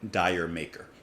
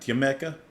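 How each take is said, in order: First: The first word sounds like 'dire'. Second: The first word sounds like 'dear'. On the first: The speaker calls it wrong. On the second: The speaker calls it right.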